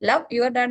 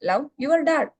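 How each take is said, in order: First: The word love carries the stress. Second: The words your dad carry the stress. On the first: Loving is the important action. "സ്നേഹിക്കുക എന്നുള്ളതിനാണ് നമ്മൾ importance കൊടുത്തത്" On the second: It is your own dad who should be loved. "നിങ്ങളുടെ dad എന്നുള്ള കാര്യത്തിനാണ് അവിടെ emphasise കൊടുക്കുന്നത്"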